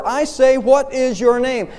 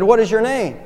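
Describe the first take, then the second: First: Narrated imperial rage, higher-pitched; enraged roar. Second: Lightly voiced emperor's question. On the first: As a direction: demand it as a roaring emperor, slowing at the end. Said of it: "with a cry of rage, the emperor roared". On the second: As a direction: ask with mild, higher-pitched authority. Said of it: "He said, "What is your name?". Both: A narrator's reading.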